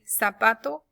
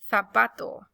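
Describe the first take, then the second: First: The z is said like an s. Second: The z is said like English th, as in Spain.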